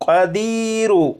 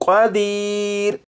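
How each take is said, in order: First: The word ends on a short vowel. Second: The word ends on a bare consonant. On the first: The reader continues into the next verse. "अगर यहाँ पर वक्फ ना करना हो" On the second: The reader stops at the end of the verse. "इसे वक्फ में पढ़ेंगे"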